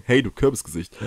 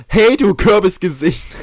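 First: Said in the usual way. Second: Higher, louder, slow taunting jab; mock insult. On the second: Shown as a demonstration. Trying out a new insult on the scarecrow, mock taunt. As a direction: sneer it out like a playground taunt. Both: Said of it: "neue Beleidigung".

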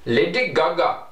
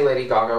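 First: Put-on Indian accent. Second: Said in the usual way. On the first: Shown as a demonstration. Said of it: "with an India people accent". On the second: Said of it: "I love to say [name]".

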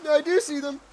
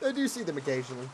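First: High, loud confession; high-strung admission. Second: Said in the usual way. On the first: Pretend. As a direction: admit it loudly in a raised pitch. Nervously admits seeing shadow people.

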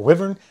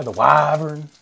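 First: Wyvern with a short i, WIV-ern; short-i pronunciation. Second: Wyvern with a long, loud i, WHY-vern; hard Y. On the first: Offering another pronunciation, wyvern with short i. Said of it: "I don't know what the pronoun". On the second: Telling friend his preferred way, wyvern with hard Y. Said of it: "I like the hard Y". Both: Shown as a demonstration.

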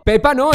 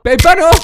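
First: Said in the usual way. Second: PEPA NO high and loud; emphatic protest. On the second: Acted. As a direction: exclaim "Pepa no" in raised, insistent protest. Repeats it in shocked protest.

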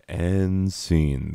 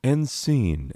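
First: Said in the usual way. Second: A touch of the high sob voice lingering; fading fake cry. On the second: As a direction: leftover crying voice, slightly high.

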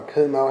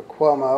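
First: Kumo said without the W glide, KOO-moh; alternate pronunciation. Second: Cuomo said with a W glide, KWOH-moh; alternate pronunciation. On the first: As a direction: try the name as "Kumo", KOO-moh, low and offhand. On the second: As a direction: try the name as "Cuomo", KWOH-moh, low and offhand. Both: Shown as a demonstration. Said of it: "however you say his name".

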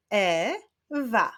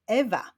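First: "Ewa" split as e, pause, wa; syllable by syllable. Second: Said in the usual way. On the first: Shown as a demonstration. Teacher clapping out girls' names, "Ewa" said syllable by syllable. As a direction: sound out "Ewa" in two beats. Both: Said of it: "Wyklaszczmy sylaby w ich imionach".

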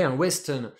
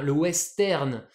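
First: «western» à l'anglaise, r doux. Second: «western» lent, r français; à la française. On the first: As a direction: dites «western» comme en anglais. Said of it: "En anglais, un western". («un western» prononcé à l'anglaise) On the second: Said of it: "on dit le western". («le western» lent, à la française) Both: Shown as a demonstration.

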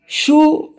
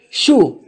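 First: شو said high and drawn out, like asking; drawn-out question word. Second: Said in the usual way. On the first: Shown as a demonstration. Teacher shows the word شو with a high questioning lift. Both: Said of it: "شو or إيش in Levantine".

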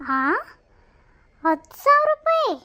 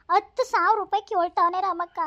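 First: Much higher, louder incredulous echo; shocked disbelief. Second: Said in the usual way. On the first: Acted. Friend echoes the huge sum in shock, high loud disbelief. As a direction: repeat the sum as if it floored you.

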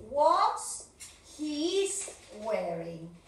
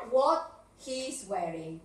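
First: What's he wearing with what's stressed, rising; wrong version shown. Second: Slow what he's wearing, what stressed; corrected version. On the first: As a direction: show the mistake, stress on what's. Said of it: "el error común es decir". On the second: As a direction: model the correct form slowly. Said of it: "Qué es lo que está de más aquí". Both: Shown as a demonstration.

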